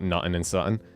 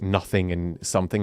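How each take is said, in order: First: The words blend together in a Scottish accent. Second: Each word is pronounced clearly and separately. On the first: "as opposed to like nothing and something" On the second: "enunciating like nothing and something"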